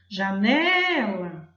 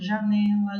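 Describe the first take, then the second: First: The word is called out, with a strong middle syllable. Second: The word is said plainly, without clear emphasis. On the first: "eu chamo assim, ... Eu percebo que o né ficou mais forte" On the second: "Difícil de perceber qual é a sílaba pronunciada mais forte"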